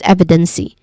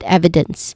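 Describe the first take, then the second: First: The word ends with an extra vowel sound. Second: The word ends with a hissing consonant sound. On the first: The speaker calls it wrong. "we do not say it as" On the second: The speaker calls it right. "but evidence"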